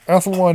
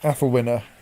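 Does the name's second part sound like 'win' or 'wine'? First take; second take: wine; win. First: The second part rhymes with 'wine', a long vowel. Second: The second part has a short 'i' like 'win'. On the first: The speaker calls it wrong. "wine would be a utterly silly pronunciation of that" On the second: The speaker calls it right. "it's a short I"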